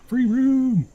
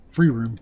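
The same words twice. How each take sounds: First: Very high, loud cry; finding a free room, shouting it out; excited shout. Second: Said in the usual way. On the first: Shown as a demonstration.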